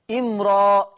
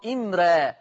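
First: إمرا with a thick, heavy ra; إمرا said with the r full and velarised; تفخيم الراء في إمرا. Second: إمرا with a thin, light ra; إمرا said with the r light and fronted; ترقيق الراء في إمرا. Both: Shown as a demonstration. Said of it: "هكذا تقرأ بجواز التفخيم والترقيق".

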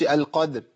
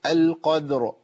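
First: "القدر" cut off at the dal; dropped ra. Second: "القدر" with bounced dal and full, heavy ra. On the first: Teacher showing the mistake, "القدر" with its ra lost. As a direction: swallow the final ra of "القدر". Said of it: "ما أقولش القدر". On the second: Teacher showing the right way, "القدر" with heavy audible ra. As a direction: sound the final ra of "القدر" clearly. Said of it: "الراء عندي هنا مفخمة". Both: Shown as a demonstration.

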